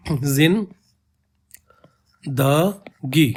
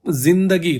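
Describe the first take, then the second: First: जिन, then a long pause, then द गी very slowly; syllable split. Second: Said in the usual way. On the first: Shown as a demonstration. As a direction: break जिंदगी into जिन and द गी, stretched slowly. (जिंदगी को जिन… द गी तोड़कर बहुत धीरे बोलें) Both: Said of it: "जिंदगी को अगर प्रोनाउंस करोगे".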